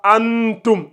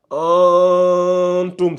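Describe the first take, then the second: First: Antum said with the mouth closed on the m, no nasal hold; wrong antum. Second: Antum said slowly, the n held through the nose; nasalized antum. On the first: Teacher showing the wrong way to students. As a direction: antum pronounced without nasalization. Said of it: "on dit pas antum". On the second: Teacher showing the correct nasal sound to students. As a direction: antum with a long nasal ghunna. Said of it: "au niveau des narines". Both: Shown as a demonstration.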